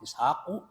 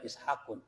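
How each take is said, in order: First: The word ends on a vowel without n. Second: The word ends with an added n sound. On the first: The speaker calls it right. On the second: The speaker calls it wrong.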